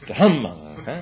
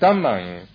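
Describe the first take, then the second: First: The first consonant has a puff of breath. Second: The first consonant has no puff of breath. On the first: The speaker calls it right. "no, it's Dhammang" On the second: The speaker calls it wrong. "And I was saying Dhammang"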